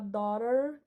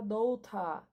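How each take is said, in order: First: It is said with an American accent. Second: It is said with a British accent.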